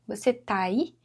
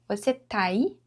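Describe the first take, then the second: No difference in how they are said.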